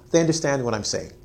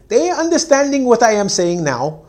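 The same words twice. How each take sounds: First: Said in the usual way. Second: Higher, louder mocking of the mistake; mock wrong English. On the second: Teacher showing the wrong way to say it, higher mock voice. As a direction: say it like a careless learner. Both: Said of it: "So you don't say".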